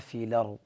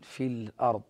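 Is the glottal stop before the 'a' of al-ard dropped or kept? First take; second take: dropped; kept. First: The glottal stop drops; its vowel moves onto the lam. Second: The glottal stop is kept after a silent lam. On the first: "فهنا نقول لورش" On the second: "ولحفص وقالون في الأرض هكذا"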